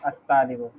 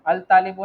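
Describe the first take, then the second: First: अल तालिबु said low, the corrected form; corrected pronunciation. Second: अल तालिबु with the ल sounded, the mistake; wrong pronunciation. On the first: Teacher repeats the corrected reading to the student. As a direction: say अल तालिबु low, without the separate ल. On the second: Teacher shows the student's mistaken reading. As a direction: say अल तालिबु with a separate ल. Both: Shown as a demonstration. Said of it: "अल तालिबु नहीं".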